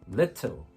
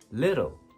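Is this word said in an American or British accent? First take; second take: British; American. First: The middle t is a clear t. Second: The middle t is a soft tap.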